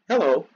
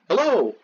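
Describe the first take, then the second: First: The stress is on the first syllable. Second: The stress is on the second syllable. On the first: "Either stressed then unstressed" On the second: "or un then stressed"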